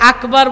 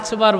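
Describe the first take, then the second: First: The word has a clear k sound in the middle. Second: The word has a ch sound in the middle. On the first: This is how the word should be said. The speaker calls it right. "আকবার বলতে পারে না" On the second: Someone with a burned tongue said it this way. The speaker calls it wrong. "আচবার বলে"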